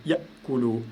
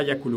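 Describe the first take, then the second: First: Yakulu with Ya cut short by a catch in the throat; glottal stop. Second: Yakulu joined up, with no break after Ya; no glottal stop. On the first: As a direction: say Ya, stop the air, then kulu in Yakulu. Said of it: "vous dites Yakulu". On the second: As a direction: say Yakulu straight through as one smooth word. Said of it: "vous ne dites pas Yakulu". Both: Shown as a demonstration.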